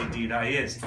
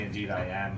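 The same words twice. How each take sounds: First: "Indeed" cut to "deed"; "Indeed" as one syllable, Newfoundland style; Newfoundland form. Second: "Indeed" with both syllables; "Indeed" starting with a clear "in"; mainland Canadian wording. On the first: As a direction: drop the "in", run "Indeed I is" as "deed I is". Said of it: "in Newfoundland, we just say". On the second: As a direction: say "Indeed I am" in full, standard form. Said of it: "rest of Canada, you might say". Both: Shown as a demonstration.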